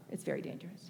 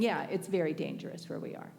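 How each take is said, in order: First: "very dangerous" dropped to a whisper; whispered repeat. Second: Said in the usual way. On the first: Shown as a demonstration. Warning the audience, whispering "very dangerous". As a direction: hush it the second time, "It's very dangerous".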